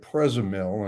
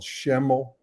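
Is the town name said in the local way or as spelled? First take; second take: as spelled; local. First: The name is sounded out from its letters. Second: The name is said in the local way. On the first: The speaker calls it wrong. "So I'm pronouncing it Prezamil, and everybody's looking at me like I'm crazy" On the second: The speaker calls it right. "a place called Schemmel"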